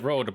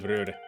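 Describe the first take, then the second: First: The vowel is an English 'oh' sound. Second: The vowel is a Norwegian 'ö' sound. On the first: "Should actually be pronounced road" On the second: "because it's the uh, Nor- Norwegian ö, I just always say rör"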